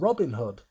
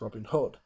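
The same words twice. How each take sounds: First: The stress is on Robin, American style. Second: The stress is on Hood, British style.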